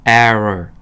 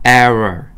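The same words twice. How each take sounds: No difference in how they are said.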